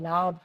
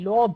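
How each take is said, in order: First: The vowel sounds like 'uh'. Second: The vowel sounds like 'oh'. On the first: The speaker calls it right. "কি বলি লাভ" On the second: The speaker calls it wrong. "আমরা বলি না লোভ"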